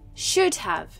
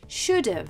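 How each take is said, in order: First: Have is said as a separate full word. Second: Have is reduced and joined onto should. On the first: "there is the word have after the modal verb" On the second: "we shorten these words to should've"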